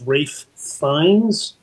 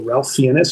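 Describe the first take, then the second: First: The first name rhymes with safe, no L sound. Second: The first name has an L sound, like Ralph. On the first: The speaker calls it right. "but it's Rafe" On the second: The speaker calls it wrong. "however people want to pronounce it"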